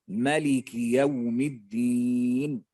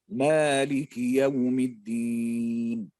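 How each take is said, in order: First: The first vowel of the first word is short. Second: The first vowel of the first word is long. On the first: "بحذف الألف" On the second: "بالألف بعد الميم"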